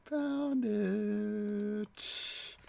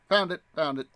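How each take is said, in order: First: Found it drawn out long and much higher, sing-song; playful drawn-out high found it. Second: Louder, quick pleased found it, found it; a little burst of triumph; excited. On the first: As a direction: croon it high and slow like a little victory tune. Repeats it stretched out, sing-song. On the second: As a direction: pounce on it, pleased you found it. Excited on finding the trailer. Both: Real, not acted.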